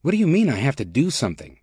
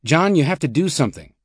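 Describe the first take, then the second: First: Mildly impatient, quick retort; rising impatience. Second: Mildly stern, a little higher in pitch. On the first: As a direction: throw the demand back, quickly. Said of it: "his voice rising with impatience". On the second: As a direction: press him with a touch of sternness. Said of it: "Paulson said sternly". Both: A narrator's reading.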